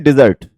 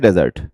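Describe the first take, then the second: First: डिजर्ट with stress on the second syllable, dih-ZERT; teacher models डिजर्ट as dih-ZERT; verb desert. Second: डेजर्ट with stress on the first syllable, DEH-zert; teacher models डेजर्ट as DEH-zert; noun desert. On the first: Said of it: "तो इसको बोलते हैं डिजर्ट". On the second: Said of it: "तो हम इसको बोलते हैं डेजर्ट". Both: Shown as a demonstration.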